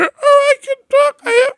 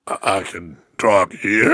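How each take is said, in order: First: Voice jumping high. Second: Low broken-register take, a bit softer. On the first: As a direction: jump up into a cracked squeak. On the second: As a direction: drop into the low cracked register. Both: Retold or imitated. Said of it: "So I was going".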